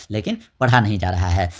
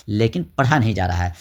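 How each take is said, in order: Both takes have the same delivery.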